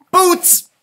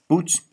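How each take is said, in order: First: Perky boots. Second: Said in the usual way. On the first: Acted. Pam says boots.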